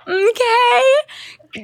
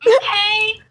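First: High, drawn-out okay; her own okay. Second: Loud, high mock okay; imitating host's okay. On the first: Retold or imitated. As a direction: say okay the way you always do. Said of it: "the amount of times I go". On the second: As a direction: copy her signature okay. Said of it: "Oh my God, the amount of times I go, "Okay".

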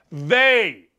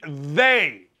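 First: They. said alone, hit hard; They. punched low; stress on they. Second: They. dropped low and hard after he; they. punched low against he; stress on they. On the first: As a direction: lean on They. as a full stop. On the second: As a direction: land they. as the point. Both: Shown as a demonstration. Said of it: "Not just he, they".

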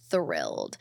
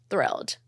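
First: Thrilled dropped very low and soft, flat fall; deadpan thrilled. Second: Said in the usual way. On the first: Shown as a demonstration. Fan mock-underplaying joy about a singer, very low deadpan. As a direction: sink the word Thrilled into a deep, quiet deadpan.

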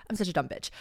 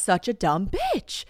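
First: Muttered self-insult, softer; quiet self-mockery. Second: Drawn out, slowly mocking herself; slow self-mockery. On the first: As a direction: drop it under your breath. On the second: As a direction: stretch it out, self-deprecating. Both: Real, not acted. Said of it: "I'm reminded that I am just".

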